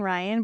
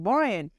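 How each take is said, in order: First: Said in the usual way. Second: Put-on "Brian" with a Boston-accented swallowed vowel, like "Bor-yan"; Ryan as "Brian". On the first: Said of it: "he was probably saying Ryan". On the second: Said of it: "it sounded like Brian".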